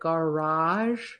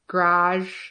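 First: It is said in a non-Michigan accent. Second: It is said in a Michigan accent. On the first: "instead of garage" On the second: "We all, at least in Michigan, kind of say garage"

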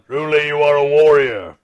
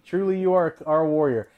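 First: It is said in a put-on Klingon voice. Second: It is said in his normal voice.

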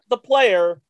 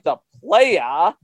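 First: The word ends in an 'er' sound. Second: The word ends in an open 'ah' sound. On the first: The speaker calls it wrong. "not the player" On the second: The speaker calls it right.

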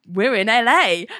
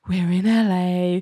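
First: It is said with more enthusiasm. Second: It is said idly, without interest.

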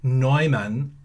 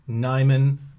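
First: The name is said with a German pronunciation. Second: The name is said with an English pronunciation. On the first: "as opposed to" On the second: "the common, local, anglicized pronunciation"

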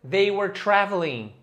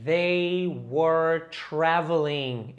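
First: It is said fast. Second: It is said slowly.

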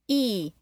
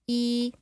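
First: The pitch goes down. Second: The pitch stays level throughout. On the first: "E is falling" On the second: "E is like flat"

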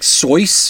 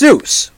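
First: The name is said with a Swiss-German vowel. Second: The name is said with an anglicized vowel. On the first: The speaker calls it wrong. "I know it's supposed to be like the Swiss name or something, and it's pronounced like Soyce" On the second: The speaker calls it right. "but it's Seuss, okay?"

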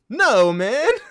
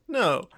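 First: It is said with rising indignation. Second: It is said calmly, without indignation.

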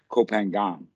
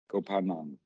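First: The name is said with Western pronunciation. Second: The name is said with Thai pronunciation. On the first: The speaker calls it wrong. "But the Westerners always pronounce it Koh Phangan" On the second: The speaker calls it right. "The Thai people pronounce it that way because that's how it's written"

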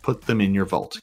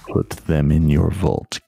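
First: It is said in an ordinary speaking voice. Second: It is said in a deep, booming put-on voice. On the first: The speaker calls it wrong. "you didn't do the voice" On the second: The speaker calls it right. "it vibrated in my ears"

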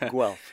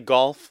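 First: The name is said as Guelph, unlike golf. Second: The name is said like the word golf. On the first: The speaker calls it right. "but it's Guelph" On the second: The speaker calls it wrong. "A lot of people say golf"

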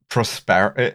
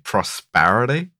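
First: The word is said in a British accent. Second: The word is said in an American accent.

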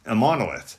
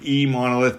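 First: The name begins with an 'im' sound. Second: The name begins with an 'ee' sound. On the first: The speaker calls it right. "is like impossible, the word impossible. So that's a monolith" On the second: The speaker calls it wrong. "it wasn't like eMonolith because we weren't putting an E in front of it"

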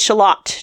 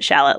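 First: The word ends rhyming with Camelot. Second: The word is said like the onion shallot. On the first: The speaker calls it right. "It is Shalott to rhyme with Camelot" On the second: The speaker calls it wrong. "if you pronounce it Shalott like the thing in the Onion family"

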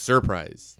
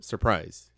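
First: The r before the p is clearly pronounced. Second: The r before the p is dropped. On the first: This is how the locals say the name. The speaker calls it right. "they enunciate it" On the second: This is how outsiders say the name. The speaker calls it wrong. "not surprise"

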